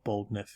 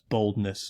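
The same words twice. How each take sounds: First: The word is said with an f sound. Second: The word is said with an s sound. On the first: The speaker calls it wrong. "not boldness. If you read it with F's, it sounds like you have a lisp" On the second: The speaker calls it right. "but that's boldness"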